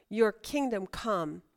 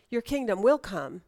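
First: Said in the usual way. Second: "will" stressed in "your kingdom will come"; firm statement with the weight on "will"; emphatic WILL. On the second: Shown as a demonstration. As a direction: lean on "will" as a certainty. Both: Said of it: "And the inference is".

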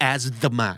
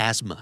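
First: Asthma with the TH voiced as an extra "duh" syllable, "as-duh-ma"; TH sounded out. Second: "Asthma" in two syllables, "AZ-ma", no TH sound; silent TH. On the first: Teacher showing learners what to avoid, "asthma" with TH sounded. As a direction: say "asthma" wrongly as "az-THUH-ma", TH pronounced. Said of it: "ไม่ต้อง asthma นะครับ". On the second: Teacher modelling the word for learners, "Asthma" with silent TH. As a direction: say "Asthma" as "az-muh", dropping the TH completely. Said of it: "แต่ T H ไม่ออกเสียงครับ". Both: Shown as a demonstration.

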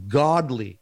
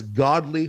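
First: Godly leaned on with weight; emphasize godly. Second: Godly stressed again inside the aside; godly repeated as the key word; repeat godly with emphasis. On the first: Real, not acted. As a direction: give godly a firm stress on its own. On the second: Shown as a demonstration. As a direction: lean on godly once more. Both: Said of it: "and I emphasize godly".

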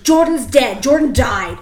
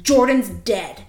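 First: Imitating dad's loud, higher angry announcement; angry snap. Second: Imitating dad's blunt snap, a bit louder; mock-angry blurt of bad news. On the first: Dad breaking news to his kid, imitated loud angry snap. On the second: Dad snapping around from furious gardening, imitated angry snap. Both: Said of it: "he fucking snaps around".

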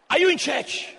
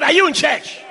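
First: Said in the usual way. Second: Louder repeat. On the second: Shown as a demonstration. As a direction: ask the church again, louder. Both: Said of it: "I said".

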